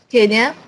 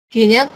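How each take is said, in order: No difference in how they are said.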